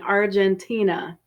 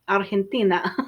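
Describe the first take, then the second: First: The word is said with English sounds. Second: The word is said with Spanish sounds. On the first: "that's the English pronunciation" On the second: "I think Spanish"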